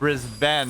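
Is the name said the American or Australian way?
Australian. It is said with an Australian pronunciation. The speaker calls it right. "like Brisbane instead of"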